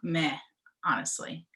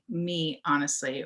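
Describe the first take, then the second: First: The first word is said as 'meh'. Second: The first word is said as 'me'. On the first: "or meh, honestly?" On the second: "Or do you say, like, me, honestly"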